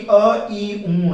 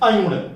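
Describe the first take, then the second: First: Each sound is said separately with breaks. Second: The sounds are run together as one word. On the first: The speaker calls it right. "बल्कि अ ई ऊण बोल रहे हैं" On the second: The speaker calls it wrong. "जैसे हमने कह दिया अयुण, तो यहां हम अयुण नहीं बोल रहे हैं"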